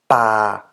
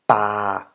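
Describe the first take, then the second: No difference in how they are said.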